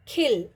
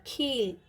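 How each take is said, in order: First: खिल with a short clipped इ; खिल, keep the इ short; short i in khil. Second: खील with a long drawn-out ई; long ee in kheel. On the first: Teacher contrasting खिल with a short इ. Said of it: "पहले था". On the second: Teacher showing students the long ई in खील. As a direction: stretch the ई in खील. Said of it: "अगर long sound मतलब बड़ी की मात्रा". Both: Shown as a demonstration.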